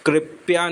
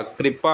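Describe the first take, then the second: First: कृपया said as "kripya", with a y glide; wrong word form. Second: कृपा said as "kripa", no y glide; correct word form. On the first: Teacher showing the mistaken form कृपया, said as "kripya". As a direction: put a y before the last vowel of कृपया. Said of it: "कृपया नहीं होता". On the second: Teacher giving students the right form कृपा, said as "kripa". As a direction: end कृपा in a plain pa. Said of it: "कृपा होता है". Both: Shown as a demonstration.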